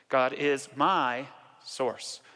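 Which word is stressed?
my. The word my is stressed.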